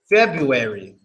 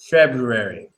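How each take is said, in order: First: It is said the usual everyday way. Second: It is said carefully, following its spelling. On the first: "We pronounce this word like this" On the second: "how is it really supposed to be pronounced and spelled?"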